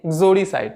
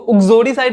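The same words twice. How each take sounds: First: "exoricide" with a barely sounded first vowel, almost "gzoricide"; just touch the opening vowel of "exoricide"; light initial vowel. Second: "uxoricide" with a clearly sounded opening "u"; full initial vowel. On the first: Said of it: "अ का हल्का सा pronounce करेंगे". ("exoricide" में शुरू का अ हल्का सा बोलें) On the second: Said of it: "इसको uxoricide नहीं पढ़ेंगे". ("uxoricide" का पहला स्वर पूरा और साफ़ बोलें) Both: Shown as a demonstration.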